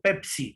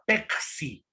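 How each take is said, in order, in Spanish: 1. La consonante del medio es un sonido p. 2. La consonante del medio es un sonido k. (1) "Eso en la sierra" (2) "desaparece la letra P, aparece eh, la letra C"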